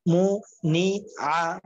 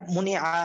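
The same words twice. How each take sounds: First: "মু, নি, আ" one syllable at a time; teacher splitting "মু, নি, আ" for learners; broken-up syllables. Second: "মুনি আ" run together as one word; "মুনি আ" read whole after splitting; joined-up word. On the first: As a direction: clear pause after each part of "মু, নি, আ". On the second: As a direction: blend "মুনি আ" without breaks. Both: Shown as a demonstration. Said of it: "এরকম ভাবে ভাঙ্গা উচ্চারণ".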